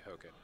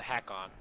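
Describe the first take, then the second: First: The first syllable sounds like 'ho'. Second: The first syllable sounds like 'ha'. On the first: This is the pronunciation others say is correct. "I've been told that it's supposed to be Hoken" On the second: This is how the speaker would naturally say it. "I would pronounce it Hakon"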